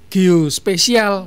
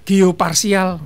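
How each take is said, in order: First: The middle syllable is said as 'spe'. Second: The middle syllable is said as 'par'. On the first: It sounds like the word for 'special'. "ada yang bilang geospesial" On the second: It sounds like the word for 'partial'. "Ada yang bilang geoparsial"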